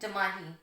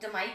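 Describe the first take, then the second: First: It is said with an h sound inside. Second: It is said without an h sound inside. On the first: This is the original form of the word. The speaker calls it right. "असल लफ्ज़ होता है जमाही" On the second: This is the common everyday form. The speaker calls it wrong. "हम में से ज़्यादा लोग जमाई कहते हैं"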